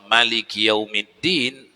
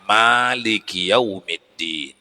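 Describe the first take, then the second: First: The first vowel of Maliki is kept short. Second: The first vowel of Maliki is held long. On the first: This is a less usual reading, still valid. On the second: This is the usual reading locally.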